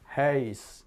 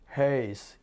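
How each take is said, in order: First: The vowel is a rounded ah-like sound. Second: The vowel is a rounded ah-like sound.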